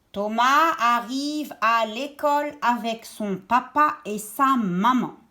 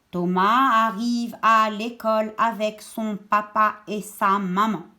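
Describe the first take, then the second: Both takes have the same delivery.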